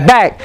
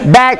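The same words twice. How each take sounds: The two takes are said the same way.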